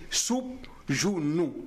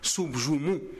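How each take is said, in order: First: The second syllable begins with an 'n' sound. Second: The second syllable begins with an 'm' sound. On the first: This is the original historical name. The speaker calls it right. "Il était dit soupe jounou" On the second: This is the usual modern name. The speaker calls it wrong. "Ça ne se dit pas"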